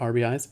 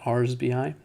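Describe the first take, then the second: First: The plural s sound comes at the very end. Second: The plural s sound comes right after R. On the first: The speaker calls it wrong. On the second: The speaker calls it right. "the actual correct way to say that"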